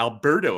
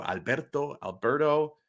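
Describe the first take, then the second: First: Alberto, anglicized gringo pronunciation; American accent Spanish. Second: Alberto with a rolled r, al-BEHR-toh; Spanish pronunciation. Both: Shown as a demonstration. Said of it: "if you wanna say it like a gringo".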